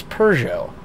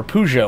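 First: "Peugeot" said "per-zhoh" with an r-coloured first vowel, falling end; correct pronunciation. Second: "Peugeot" said "poo-zhoh" with an oo vowel and no r; the mixed-up family version of "Peugeot"; old wrong pronunciation. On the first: Streamer corrects himself for chat with the right name. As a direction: settle firmly on the proper "Peugeot". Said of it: "but it's Peugeot". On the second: Streamer recalls his dad's way of saying the car name. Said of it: "or however I said it". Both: Shown as a demonstration.

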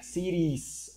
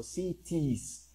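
First: CITIES drawn out, T tapped like an R. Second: CITIES drawn out with a crisp T; clear T. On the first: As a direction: slowly say "cities" as SI-rees. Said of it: "se intenta pronunciar un poco como la R". ("cities" lento, con la T como R suave) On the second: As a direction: slowly say "cities" as SI-tees. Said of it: "You can also say it like that". ("cities" lento, con T bien marcada) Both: Shown as a demonstration.

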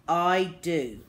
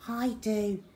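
First: Firm reply at normal pitch; a hint of a firm father; lightly voiced dad. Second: Put-on little boy Peter. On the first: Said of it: "said Dad". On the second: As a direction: chime in as a small boy. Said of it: "said Peter". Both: A narrator's reading.

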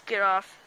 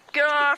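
First: Said in the usual way. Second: Loud frightened get off; panicked shout. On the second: Real, not acted. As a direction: yell it in panic. Ant biting him.

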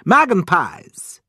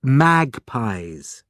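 First: "Magpies" said as "magen-pies", higher and louder; angry mispronunciation. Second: "Magpies" in two clear parts, MAG-pies; correcting pronunciation. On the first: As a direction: insist crossly on "Magpies" as MAG-en-pies. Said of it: "getting angry". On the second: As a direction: correct him with a clean "Magpies", no middle syllable. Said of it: "Margot told him". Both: A narrator's reading.

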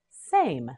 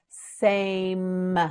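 First: Said in the usual way. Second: "Same" drawn out, long final m; slow modelling. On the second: Shown as a demonstration. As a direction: hold the vowel and m of "Same". Teacher models word slowly.

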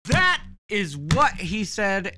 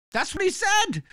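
First: "That is what he said" spelled out slowly, each word hit; slow down and lean on "That"; slow emphatic repeat. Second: Pitched way up in disbelief; indignant disbelief. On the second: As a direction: exclaim it sky-high, outraged. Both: Real, not acted.

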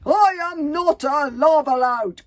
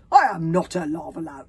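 First: High, slow, full-volume shout; drawn-out, emphatic yell of denial; calling as loudly as possible. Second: Loud, emphatic denial; offended, forceful denial; indignant protest. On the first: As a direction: bellow it through muffling headgear. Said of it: "called the man as loudly as he could". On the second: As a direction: protest loudly, affronted. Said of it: "protested the man indignantly". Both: A narrator's reading.

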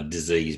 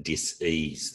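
First: Said in the usual way. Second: "dis-ease" said as dis, then ease; split into two words. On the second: Shown as a demonstration. Explaining a belief about illness, "dis-ease" split in two. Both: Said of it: "disease being dis-ease".

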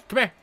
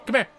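Both takes have the same delivery.

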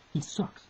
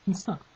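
First: Breathy whisper of the insult. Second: Said in the usual way. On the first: Real, not acted. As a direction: hiss out he sucks under the breath. Repeating the insult.

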